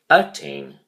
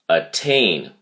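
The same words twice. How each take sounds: First: The stress is on the first syllable. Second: The stress is on the second syllable. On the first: The speaker calls it wrong. "You do not say attain" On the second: The speaker calls it right. "the emphasis is on the second syllable"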